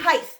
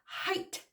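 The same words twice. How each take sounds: First: The word ends with a lisped th sound. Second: The word ends with a plain t sound. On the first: The speaker calls it wrong. "There's no H, quit saying height. ... do you have a lisp?" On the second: The speaker calls it right. "It's height"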